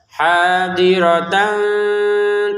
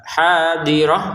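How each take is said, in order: First: The word ends with a tan sound. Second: The word ends with a soft h sound. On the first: The reciter continues to the next word. "Kalau mau melanjutkan dengan yang setelahnya maka dibaca tan" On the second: The reciter stops after this word. "kita baca ha, hadirah karena kita berhenti"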